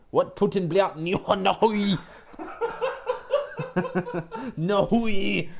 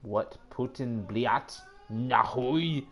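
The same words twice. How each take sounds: First: "What Putin bliat nahui" shouted high and slow in a hammed-up Russian accent, cracking into laughter; loud mock Russian. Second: "What Putin bliat nahui" drawn out slow in a fake Russian accent; mock Russian phrase. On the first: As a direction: belt the fake Russian and crack up. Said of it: "do you can speak Russian?". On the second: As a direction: sound it out slow like reading broken Russian. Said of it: "Do I can speak Russian? Let's see".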